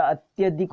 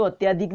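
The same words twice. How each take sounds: First: अत्यधिक said with a short अ, अत्-य-धिक; correct form. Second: अत्याधिक said with a long आ, अत्-या-धिक; wrong form read. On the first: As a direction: keep the vowel short in अत्यधिक. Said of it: "अत्यधिक होता है". (सही रूप अत्यधिक) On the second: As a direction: misspelt अत्याधिक with the long vowel. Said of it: "अत्याधिक नहीं होता". (गलत रूप अत्याधिक) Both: Shown as a demonstration.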